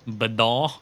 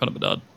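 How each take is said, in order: First: The name is said with a French accent. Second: The name is said with an English accent.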